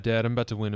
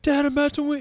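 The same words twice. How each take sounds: First: It is said in a flat, deadpan way. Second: It is said in an excited, lively way. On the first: "that's how like deadpan and straight face" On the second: "Not like"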